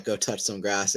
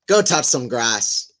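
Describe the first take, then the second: First: Said in the usual way. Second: Put-on slow, louder try at an Australian accent that drifts Irish; attempted Australian accent. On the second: Mocking online haters with a botched Australian accent. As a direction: ham up a half-Australian, half-Irish accent slowly. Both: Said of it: "That's not an Australian accent".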